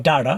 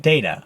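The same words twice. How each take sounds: First: "data" as DA-tuh, open "a"; alternative pronunciation. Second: "Data" as DAY-tuh; first pronunciation. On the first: Teacher listing ways people say it, second variant. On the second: Teacher listing ways people say it, first variant. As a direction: say "Data" with an "ay" vowel. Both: Shown as a demonstration. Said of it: "The three ways to people say".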